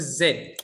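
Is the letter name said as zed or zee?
zed. It is said the British way, as zed.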